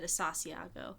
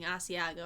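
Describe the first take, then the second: First: The word has an extra repeated 'sa' syllable. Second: The word is said without a repeated syllable. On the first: The speaker calls it wrong. "I said Asasiago" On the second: The speaker calls it right. "instead of saying Asiago"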